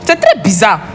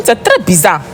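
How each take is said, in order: Both takes have the same delivery.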